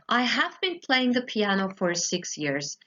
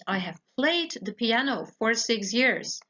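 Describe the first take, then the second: First: Been stressed as the key word; teaching stress on been. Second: Played stressed in contrast to been; teaching stress on played. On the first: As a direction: lean on been in I have been playing. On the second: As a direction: hit played to show the finished action. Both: Shown as a demonstration. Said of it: "Nochmal kurz als Gegenstück dazu sage ich".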